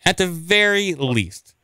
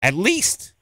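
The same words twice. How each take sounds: First: At the very least, stretched out slowly and weighed; slow emphatic. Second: At least. said high with a rising questioning lift. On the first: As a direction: drag the phrase out for emphasis. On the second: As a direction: pitch "least" up high and let it rise. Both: Real, not acted.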